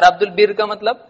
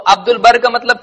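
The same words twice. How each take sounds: First: البر said "ul-birr", short i. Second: البر said "ul-barr", short a. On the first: (البر کو زیر سے "البِرّ" پڑھیں) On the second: (البر کو زبر سے "البَرّ" پڑھیں) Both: Shown as a demonstration. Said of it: "بہت الگ ہوتا ہے".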